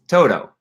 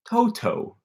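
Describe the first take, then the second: First: It is pronounced with an American English accent. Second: It is pronounced with a British English accent. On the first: "It's Toto" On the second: "if you're in Britain, it's Toto"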